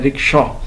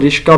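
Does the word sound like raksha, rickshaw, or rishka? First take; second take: rickshaw; rishka. First: The first vowel is 'i', then 'ksh'. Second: The 'sh' comes before the 'k' sound. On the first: The speaker calls it right. "ज़बर नहीं है बल्कि ज़ेर के साथ है" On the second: The speaker calls it wrong. "वो इसको रिश्का भी कहते हैं"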